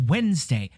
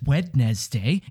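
First: The word is said with the first d silent. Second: The word is said with every letter sounded. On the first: The speaker calls it right. "It's Wednesday" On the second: The speaker calls it wrong. "Nobody says Wednesday"

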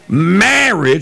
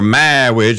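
First: The word is said in a normal voice. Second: The word is said in a put-on character voice.

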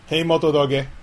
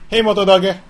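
First: The voice is calm and relaxed. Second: The voice is excited and energetic. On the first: The phone responds to it. The speaker calls it right. "I have to be calm" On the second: The phone does not respond to it. The speaker calls it wrong. "I'll try excited"

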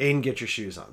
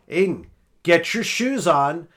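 First: The voice is raised and somewhat irritated. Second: The voice is loudest and clearly angry. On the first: Patience is starting to run out. "So my voice rises" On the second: The speaker has lost patience. "By the third time, I'm like"

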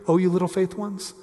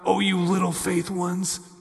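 First: It is said gently and with compassion. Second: It is said harshly, in a scolding way.

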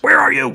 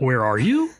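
First: It is said as a falling exclamation. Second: It is said as a rising question.

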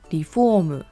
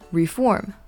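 First: It is said with Japanese pronunciation, extra vowels. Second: It is said with English pronunciation, two syllables. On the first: It means to remodel a house. "In Japanese, however, this is pronounced as" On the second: It means to change, especially in politics. "In English, this is reform"

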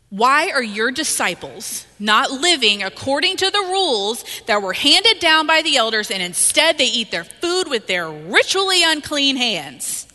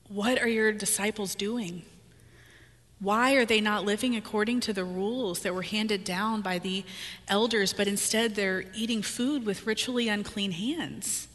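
First: It sounds judgmental and accusing. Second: It sounds worried and concerned.

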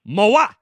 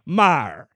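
First: The surname is pronounced like 'Mawah'. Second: The surname is not pronounced like 'Mawah'. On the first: It copies another person's odd way of saying it. "Say it like Zog says it" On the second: It copies a second person's way of saying it. "Say it like Tori says it"

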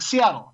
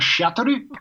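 First: Seattle is said with an American accent. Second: Seattle is said with a Japanese accent.

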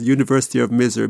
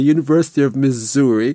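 First: The last word is said in a heavy accent. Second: The last word is said in standard pronunciation. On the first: The speaker calls it wrong. "My accent was making it come out as University of Missouri" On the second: The speaker calls it right. "Let me get my accent right"

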